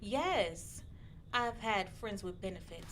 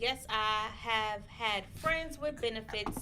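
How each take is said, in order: First: It is read in a slow, sensual way. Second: It is read in a plain, ordinary way. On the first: The speaker calls it right. "Can you say it more sensual?" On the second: The speaker calls it wrong. "I don't think Tina would say it like that"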